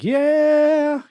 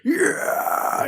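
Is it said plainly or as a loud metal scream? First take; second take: plainly; metal scream. First: It is said plainly, without screaming. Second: It is a loud metal-style scream.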